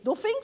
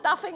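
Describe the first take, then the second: First: The name is said with German vowel sounds. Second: The name is said with English vowel sounds. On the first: This is how the German engineer's name is really said. The speaker calls it right. "the correct pronunciation, so to say, is Duffing" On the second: This is how most people say the name. The speaker calls it wrong. "as everybody says"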